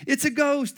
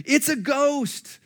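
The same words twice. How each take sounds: First: High, loud frightened cry; cried out in fear. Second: Put-on high, slow scared shriek of young men; terrified shriek. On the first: Acted. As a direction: cry out in panic at a ghost. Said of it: "they cried out in fear". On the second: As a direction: shriek it like you've seen a ghost. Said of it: "can't you just hear their high-pitched screaming?".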